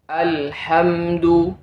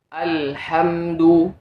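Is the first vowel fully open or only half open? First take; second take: fully open; fully open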